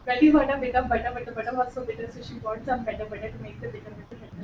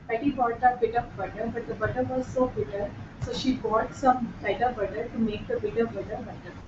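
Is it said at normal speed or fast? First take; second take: fast; normal speed. First: It is said fast. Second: It is said at a normal speed.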